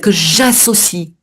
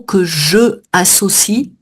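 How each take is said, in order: First: The vowel of 'je' is dropped before 'associe'. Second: The vowel of 'je' is kept before 'associe'. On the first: The speaker calls it right. "on fait une élision, j'enlève mon E" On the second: The speaker calls it wrong. "on peut pas"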